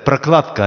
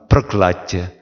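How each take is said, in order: First: It is said in standard Russian pronunciation. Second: It is said with a softened consonant. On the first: "Это прокладка" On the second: "они немножко смягчили его"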